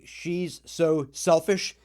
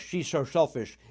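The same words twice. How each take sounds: First: The title is said very slowly and carefully. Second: The title is said quickly and garbled together. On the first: The speaker calls it right. "I had to say that very slowly" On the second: The speaker calls it wrong. "is what happened the first eight times"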